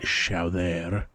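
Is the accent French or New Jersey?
French. It is said with a thick French accent.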